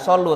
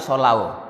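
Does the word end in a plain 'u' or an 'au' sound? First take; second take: plain u; au. First: The word ends with a plain 'u' vowel. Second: The word ends with an 'au' diphthong. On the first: The speaker calls it wrong. "Bukan solu" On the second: The speaker calls it right. "tapi solau"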